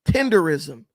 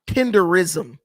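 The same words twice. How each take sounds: No difference in how they are said.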